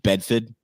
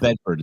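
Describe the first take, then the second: First: It is said in a Boston accent. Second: It is said in a general American accent. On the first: The speaker calls it right. "You can't say some of these town names without" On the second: The speaker calls it wrong. "It's not Bedford"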